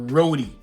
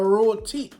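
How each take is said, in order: First: The middle consonant sounds like a soft D. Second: The middle consonant is a crisp T. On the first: The speaker calls it wrong. "you can't be saying roadie" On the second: The speaker calls it right. "that's called a roti"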